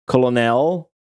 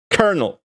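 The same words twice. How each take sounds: First: "Colonel" read as COL-o-nel, three syllables as spelled. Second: "Colonel" said as KER-nel, two syllables; colonel said right. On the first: Streamer mocks the spelling, COL-o-nel, letter by letter. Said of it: "Dude, that's not how they ma". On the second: Streamer shows chat his colonel, said like kernel. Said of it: "Rate my pronunciation of the word colonel". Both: Shown as a demonstration.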